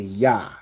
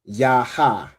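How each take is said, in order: First: The letters join and the final 'a' drops. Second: Both letters are said fully, ending in 'a'. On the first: The two letters are joined. The speaker calls it right. "you just say ya. So it's like saying Y A H" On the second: The two letters stand apart. The speaker calls it wrong. "instead of saying yaha"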